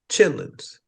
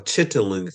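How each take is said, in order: First: The word is said in two short syllables. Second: The word is said in three full syllables. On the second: This is the name some other people use. "as some people call it"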